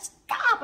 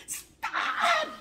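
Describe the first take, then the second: First: High, loud, sharp yell; sudden high-pitched outburst; retold shout. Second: Very high, loud shout; piercingly high yell of protest; retold pained scream. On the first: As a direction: re-enact a shout to halt an attacker. Re-enacted shout that stopped her. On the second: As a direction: re-enact screaming out in pain. Re-enacted cry of pain.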